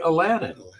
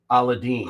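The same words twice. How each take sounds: First: The name is said the common Western way. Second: The name is said the Indian way. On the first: "most people would say Aladdin" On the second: "All throughout India and Southern Asia, they actually pronounce it Aladdin"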